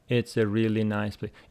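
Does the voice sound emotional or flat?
flat. It is said with flat intonation and no emotion. The speaker calls it wrong. "Don't say it's a really nice place. It doesn't have any emotion"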